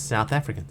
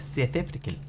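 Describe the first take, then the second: First: Said in the usual way. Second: Put-on quiet South African accent, vowels shifted; put-on South African twang. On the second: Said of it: "I recognized her accent as South African".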